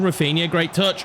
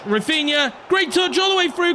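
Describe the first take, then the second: First: Said in the usual way. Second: Much higher, thrilled commentary call; excited. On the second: Real, not acted. Commentator hyping his winger's touch, much higher and excited. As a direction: ride the build toward the goal. Repeated call rising to goal.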